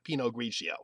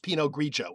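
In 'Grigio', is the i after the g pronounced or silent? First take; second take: pronounced; silent. First: The i after the g is pronounced. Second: The i after the g is silent. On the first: The speaker calls it wrong. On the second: The speaker calls it right. "correctly pronounced"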